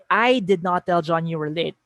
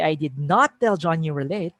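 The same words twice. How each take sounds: First: I punched, the rest level; I did not tell John you were late with the weight on I; stress on I. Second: Not said with the main weight; I did not tell John you were late with not stressed. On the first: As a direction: lean on the word I as if someone else told him. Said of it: "If I say". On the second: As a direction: hit not as the denial. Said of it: "You're focusing on that negating word". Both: Shown as a demonstration.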